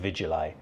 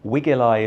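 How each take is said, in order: First: The word starts with a V sound. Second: The word starts without a V sound. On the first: "it might have been pronounced with a V sound" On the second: "is probably how it may have been pronounced by the Romans"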